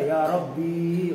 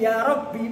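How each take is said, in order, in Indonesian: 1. Vokal akhir pada Rabbi panjang. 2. Vokal akhir pada Rabbi pendek. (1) "orang-orang luar ada yang baca ya Rabbi"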